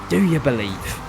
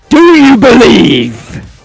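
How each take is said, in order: First: It is said at normal volume. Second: It is said louder, with more energy.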